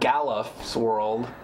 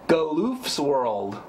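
First: The second vowel is a short sound. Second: The second vowel is a long oo sound. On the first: The speaker calls it wrong. "Not Galuf's world" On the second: The speaker calls it right. "With with three O's"

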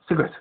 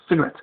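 First: It is said fast in a South African accent. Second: It is said fast in a South African accent.

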